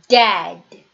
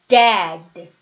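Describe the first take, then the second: The two takes are said the same way.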